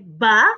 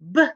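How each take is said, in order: First: The b sound is followed by a vowel. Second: The b sound is clipped with no vowel. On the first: The speaker calls it wrong. "Don't say ba" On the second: The speaker calls it right. "Make sure you clip that sound"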